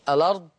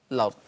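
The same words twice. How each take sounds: First: "الأرض" as a-lard; two syllables, a-lard, for "الأرض"; initial vowel kept. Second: "الأرض" as lard; one syllable, lard, for "الأرض"; initial vowel dropped. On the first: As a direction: begin "الأرض" with short a. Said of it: "إثبات همزة الوصل". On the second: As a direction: begin "الأرض" with l. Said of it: "أو حذف همزة الوصل". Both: Shown as a demonstration.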